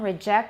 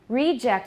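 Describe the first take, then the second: First: The stress is on the second syllable. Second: The stress is on the first syllable. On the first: It is used as a verb. "is the verb" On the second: It is used as a noun. "is the noun"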